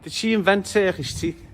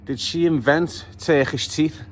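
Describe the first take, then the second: First: Higher repeat. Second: Slowed, each word drawn out in disbelief; mock shocked question. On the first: Real, not acted. Pointing out her teeth to viewers, higher mocking repeat. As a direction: repeat it higher, pitched up on "invent" and falling. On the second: Reacting to her teeth on the grid, slow incredulous question. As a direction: ask "invent" slowly, in a rising, incredulous tone. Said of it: "you get to the grid and go".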